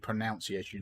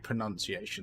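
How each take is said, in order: First: The second syllable sounds like 'noun'. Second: The second syllable sounds like 'nun'. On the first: The speaker calls it wrong. "They wouldn't tell me to say pronunciation. They would say that's wrong" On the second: The speaker calls it right. "they would tell me to say pronunciation"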